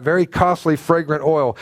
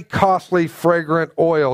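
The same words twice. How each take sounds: First: "very" hit hardest in "very costly fragrant oil"; stress on very. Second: "costly fragrant oil" drawn out slowly, weight on "costly"; slow stress on costly. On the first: Preacher repeating the phrase with "very" punched. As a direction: punch "very" to drive the price home. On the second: Preacher stressing to the congregation that "costly" is slow and heavy. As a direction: lean slowly on "costly" so they notice the price. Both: Shown as a demonstration. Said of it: "Don't miss that".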